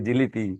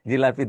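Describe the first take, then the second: First: The middle vowel is a close 'i'. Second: The middle vowel is an open 'a'. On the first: This is the form used by unschooled rural speakers. "বলে জিলিপি" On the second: This is the standard educated form. "জিলাপি বলে না"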